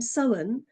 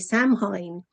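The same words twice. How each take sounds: First: The word is pronounced with reduced, unspelled sounds. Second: The word is pronounced as it is spelled. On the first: The speaker calls it right. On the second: The speaker calls it wrong.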